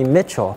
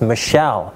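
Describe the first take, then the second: First: The name is said like Mitchell. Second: The name is said like Michelle. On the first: The speaker calls it wrong. "people mispronounce it and call me Mitchell" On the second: The speaker calls it right. "my last name is Michelle"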